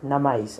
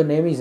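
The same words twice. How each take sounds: First: नमाइज said as "na-maa-iz", three syllables; misread word. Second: नेमीज said as "nay-meez", two syllables; corrected pronunciation. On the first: Retold or imitated. Brother misreads the Instagram name as नमाइज. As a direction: read नमाइज like a clueless elder brother sounding it out. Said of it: "पढ़ा". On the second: Shown as a demonstration. Correcting his brother over the phone, says नेमीज. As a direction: give नेमीज confidently as the right reading. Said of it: "N A M E I S".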